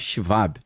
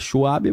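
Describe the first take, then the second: First: The W is said like a V. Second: The W is said like an English W. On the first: This is how it is said in German. "mas alemão é Schwab ... Porque o W tem som de V" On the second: This is how people commonly say it. "A galera fala Schwab"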